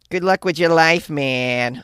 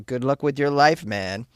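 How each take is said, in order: First: It is said in an attempted Chicago accent. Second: It is read in the speaker's ordinary accent. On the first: "It's kind of like" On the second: "I should have read that in a Chicago accent"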